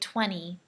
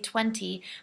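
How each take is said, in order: First: The middle T sound is left out. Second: The middle T sound is clearly pronounced. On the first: "in America we say twenty. So we actually take out the T sound" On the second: "some teachers they say twenty"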